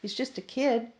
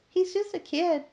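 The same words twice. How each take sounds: First: It is said in a normal voice. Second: It is said in a high falsetto voice.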